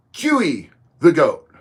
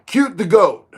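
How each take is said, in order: First: "Q E" as two syllables, KYOO-ee; second name attempt. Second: "Cute" as one syllable, KYOOT; first name attempt. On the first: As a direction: slowly sound out "Q E the Goat". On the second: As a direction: read "Cute the Goat" with a T closing Cute. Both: Real, not acted. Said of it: "I don't know how that's pronounced".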